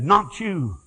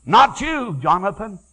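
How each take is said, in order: First: Said in the usual way. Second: High, loud repeated not you; rising refusal. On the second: Retold or imitated. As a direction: refuse him with rising force. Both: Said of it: "he said".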